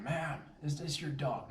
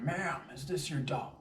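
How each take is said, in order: First: 1 polite question. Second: Firmer repeat. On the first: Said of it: "I'm asking". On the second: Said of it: "reiterate my point". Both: Retold or imitated.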